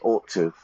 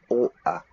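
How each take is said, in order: First: Both words are said fully and separately. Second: The words blend into one reduced word. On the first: The speaker calls it wrong. "I don't say ought to, like this voice" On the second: The speaker calls it right. "I would say oughta"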